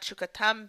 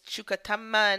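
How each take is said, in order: First: The word ends on the consonant m. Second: The word ends with an extra final vowel. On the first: The speaker calls it wrong. "not shukatam" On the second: The speaker calls it right. "it's shukatamma"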